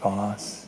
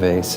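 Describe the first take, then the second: First: The vowel sounds like 'ah' in 'father'. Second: The vowel sounds like 'ay' in 'day'. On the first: The speaker calls it right. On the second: The speaker calls it wrong.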